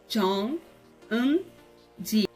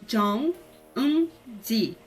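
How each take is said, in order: Both takes have the same delivery.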